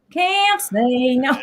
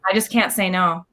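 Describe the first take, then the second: First: Can't say no, stretched very slowly and higher; slow emphatic repeat. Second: Said in the usual way. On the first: Real, not acted. Admitting to the host she can't refuse, slowly. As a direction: drag out Can't say no, each word weighed.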